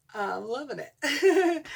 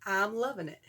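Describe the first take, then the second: First: Slow, higher, louder with a laugh. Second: Said in the usual way. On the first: Real, not acted. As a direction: sing it out laughing, stretched.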